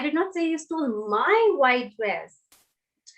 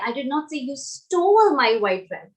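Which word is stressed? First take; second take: my; stole. First: The stress falls on the word my. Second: The stress falls on the word stole. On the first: Someone else's dress was stolen. "Now I'm stressing on the word my" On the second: The listener did something else with it. "So maybe you did something else with it"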